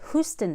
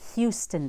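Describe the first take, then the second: First: The 'u' vowel has no 'y' glide before it. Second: The 'u' vowel has a 'y' glide before it. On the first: The speaker calls it wrong. "It's not Houston, Texas" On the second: The speaker calls it right. "after an H and before a long U"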